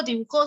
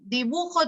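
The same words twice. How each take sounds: First: "dibujó" hit on the last syllable; stress on JÓ of dibujó. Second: "dibujo" hit on the middle syllable; stress on BU of dibujo. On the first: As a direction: lean on JÓ in "dibujó". (acento final en JÓ de «dibujó») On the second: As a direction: lean on BU in "dibujo". (acento en BU de «dibujo») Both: Shown as a demonstration. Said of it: "el acento cumple función distintiva".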